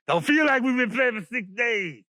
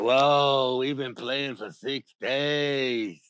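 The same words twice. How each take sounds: First: Protesting exclamation. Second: Low, very slow, drawn-out whoa; awed realization. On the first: Animals answer the voice from above, high protest. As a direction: call it out high in disbelief. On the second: Animals realize how long they played, low slow awe. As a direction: stretch it out low in amazement. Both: Acted.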